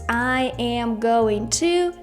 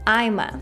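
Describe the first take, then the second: First: Each word is said separately and fully. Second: The words are blended into one short form.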